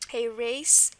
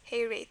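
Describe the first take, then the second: First: The final consonant is an 's' sound. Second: The final consonant is a 'th' sound.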